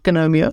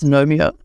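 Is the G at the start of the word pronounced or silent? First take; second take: pronounced; silent. First: The word begins with a sounded G. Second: The word begins with an N sound. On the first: The speaker calls it wrong. "It's not Gnomeo" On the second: The speaker calls it right. "the G is silent"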